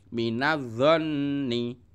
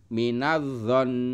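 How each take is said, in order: First: The phrase ends with a held n and vowel. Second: The phrase ends on a closed n sound. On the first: The reader continues without stopping. "Kalau tidak berhenti ya minadzonni" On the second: The reader stops at this word. "Kalau mati atau kalau berhenti berarti dimatikan"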